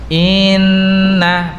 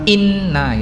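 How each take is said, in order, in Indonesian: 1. Kata inna dipanjangkan dan diseret. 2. Kata inna diucapkan pendek dan langsung. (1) "innanya jangan sampai diseret ya, bukan inna" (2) "tapi langsung in inna gitu"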